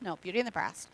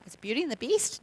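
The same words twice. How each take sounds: First: "Breast" stated with a falling tune, softer; correction. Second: "Beast" asked with a rising tune; questioning. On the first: Speaker correcting the title to "Breast" firmly. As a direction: correct it to "Breast" with a firm fall. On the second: Speaker checking the film title with a questioning rise. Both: Shown as a demonstration.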